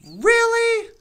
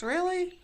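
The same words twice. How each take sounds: First: Loud, higher Really? in disbelief; incredulous. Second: Said in the usual way. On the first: Real, not acted.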